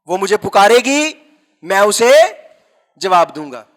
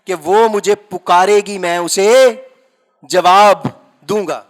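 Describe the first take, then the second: First: Said in the usual way. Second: وہ مجھے پکارے گی said slowly, each word weighed; deliberate quoting of the verse; slow scripture reading. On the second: Shown as a demonstration. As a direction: read the verse slowly, leaning on جواب. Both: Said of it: "کیا لکھا ہے؟".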